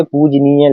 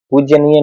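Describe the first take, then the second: First: पूजनीय said slowly and carefully, no y, पूज-नीय; slow, careful पूजनीय without the y sound; correct form. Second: पूज्यनीय said with a y glide, पूज-य-नीय; teacher voices the wrong form पूज्यनीय, pronouncing the y. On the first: Teacher gives students the correct form, slowly, पूजनीय without y. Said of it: "लिखते हैं". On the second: Teacher shows students the wrong spelling, says पूज्यनीय with y. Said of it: "नहीं लिखते". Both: Shown as a demonstration.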